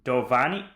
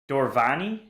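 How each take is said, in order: First: The name is said without an R sound. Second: The name is said with an R sound. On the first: "there's no R in your name" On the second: "Where's the R coming from?"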